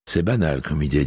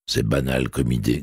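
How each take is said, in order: First: Light, amused and easy; a gentle self-mocking smile; smiling. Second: Low, mild grumble; a hint of a grumpy blind man; grumbling. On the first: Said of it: "dit Adamsberg en souriant". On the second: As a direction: mutter it dismissively. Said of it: "grommela Charles". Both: A narrator's reading.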